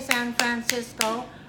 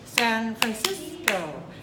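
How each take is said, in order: First: All syllables are given equal length and weight. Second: Some syllables are long and stressed, others short. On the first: The speaker calls it wrong. "I don't say San Francisco" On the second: The speaker calls it right. "I say San Francisco"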